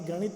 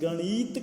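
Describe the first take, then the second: First: No syllable is given special stress. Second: The ṇa syllable is given strong stress. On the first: "जिसमें कोई बल नहीं दिया गया" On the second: "अणा पे बल दे दिया"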